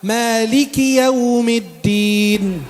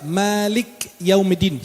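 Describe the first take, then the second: First: A short i follows the k, said quickly. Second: The k ends the word with no vowel. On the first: The speaker calls it right. "kafnya ada kasrah bukan sukun. Maka dibacanya cepat" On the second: The speaker calls it wrong. "Banyak orang salah baca"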